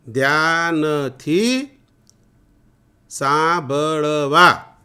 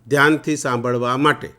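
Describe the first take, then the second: First: Each syllable is said separately with breaks. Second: The phrase is said smoothly at normal speed.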